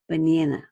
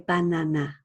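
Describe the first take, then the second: First: It is said in an American accent. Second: All three vowels are said with the same sound. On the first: "An American might say banana" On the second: "in Korean, you would say banana. You would say those sounds the same"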